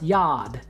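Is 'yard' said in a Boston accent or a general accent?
Boston. It is said in a Boston accent. "But in Boston, it'd be pronounced Yard"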